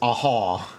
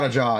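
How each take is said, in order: First: The second syllable starts with an h sound. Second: The second syllable starts with a j sound. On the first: The speaker calls it right. "It's a haw" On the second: The speaker calls it wrong. "A jaw is not a jaw"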